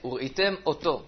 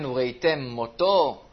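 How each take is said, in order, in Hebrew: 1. שתי המילים מופרדות בבירור. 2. המ' הסופית מתחברת למילה הבאה.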